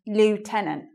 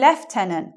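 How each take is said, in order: First: It is said with an American pronunciation. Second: It is said with a British pronunciation. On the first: "American English" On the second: "in English English ... So we say lieutenant"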